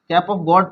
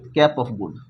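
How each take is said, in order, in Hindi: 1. आखिरी शब्द में 'aw' स्वर है, जैसे god में। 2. आखिरी शब्द में 'oo' स्वर है, जैसे good में। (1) "गॉड भी कहीं कहीं बोलते हैं" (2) "लेकिन इसको हम लोग कैप ऑफ गुड भी बोलते हैं।"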